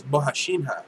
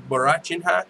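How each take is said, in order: First: Bohashinha with h for the r, bo-ha-SHEEN-ha; corrected pronunciation. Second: Borachinha with an English r and a ch, bo-ra-CHEEN-ha; mispronounced name. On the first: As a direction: say Bohashinha with a soft sh, no ch. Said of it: "It's Bohashinha". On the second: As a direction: say Borachinha as it looks on paper. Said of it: "It's not Borachinha". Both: Shown as a demonstration.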